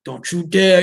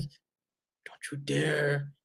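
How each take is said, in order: First: Said in the usual way. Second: Very slow, much softer low growled threat; Batman growl. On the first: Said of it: "Ben's like". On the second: Retold or imitated. Mocking Ben's Batman, slow hushed growl. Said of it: "he even does that".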